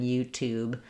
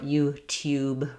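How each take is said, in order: First: The t goes straight into oo, no y. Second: A y sound follows the t in tube. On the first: This is the American pronunciation. "rather than YouTube" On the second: This is the British pronunciation. "or YouTube rather than YouTube"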